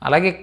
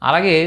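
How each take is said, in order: No difference in how they are said.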